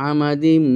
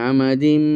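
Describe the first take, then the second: Both takes have the same delivery.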